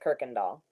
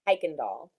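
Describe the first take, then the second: First: The name begins with a 'kir' sound. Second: The name begins with a 'kai' sound. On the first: This is how people in Texas say the name. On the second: This is the name's usual pronunciation.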